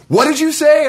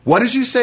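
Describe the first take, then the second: First: Much higher and louder mock shout; retold furious yell. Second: Higher-pitched, sharp confrontational question; retold angry demand. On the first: Brother reopening the slammed door, yelling the demand. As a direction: yell it after yanking the door open. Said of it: "then opens it up and goes". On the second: Brother in the doorway confronting him, mock angry demand. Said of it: "and then he goes".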